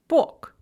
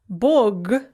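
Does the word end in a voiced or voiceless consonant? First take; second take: voiceless; voiced. First: The final consonant is voiceless. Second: The final consonant is voiced.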